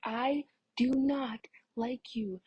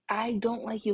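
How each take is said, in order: First: "I do not like you" said slowly, each word stressed; mock yelling. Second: Said in the usual way. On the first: Girl retelling telling off a pushy boy, "do not" slow and emphatic. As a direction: drag out "do not" firmly, without a full shout. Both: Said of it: "yelling at this point".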